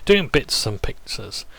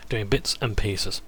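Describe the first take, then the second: First: "pieces" misspoken as "pixes"; slip on PIECES. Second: Said in the usual way. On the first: Real, not acted.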